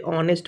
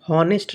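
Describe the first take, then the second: First: The word begins with a vowel, no h. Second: The word begins with an h sound. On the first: The speaker calls it right. "ऑनेस्ट पढ़ते हैं ओ से" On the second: The speaker calls it wrong. "हम हॉनेस्ट नहीं पढ़ते"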